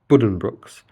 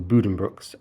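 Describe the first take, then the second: First: The first syllable has an English 'buh' vowel. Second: The first syllable has a long 'boo' vowel. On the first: The speaker calls it wrong. "like a very anglicised pronunciation of it" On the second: The speaker calls it right. "It's a boo sound rather than a b"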